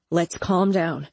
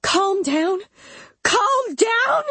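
First: Said in the usual way. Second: Very high, rising shrill questions; shrill outrage. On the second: A narrator's reading. Mama rejecting Elliot's plea to calm down, shrill. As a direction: throw it back shrilly, climbing on the repeat. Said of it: "her voice shrill".

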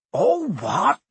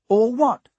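First: Loud, outraged echo; thundering disbelief. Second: Put-on high, puzzled boy's question. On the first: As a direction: thunder it back, high and incredulous. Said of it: "Hagrid thundered". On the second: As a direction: ask it loudly, all innocence. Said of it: "asked Harry". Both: A narrator's reading.

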